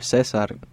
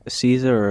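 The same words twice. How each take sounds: First: The name is said with Spanish pronunciation. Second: The name is said with English pronunciation.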